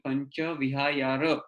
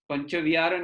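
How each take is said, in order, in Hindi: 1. दूसरा शब्द vihayar की तरह बोला जाता है। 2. दूसरा शब्द vihar की तरह बोला जाता है।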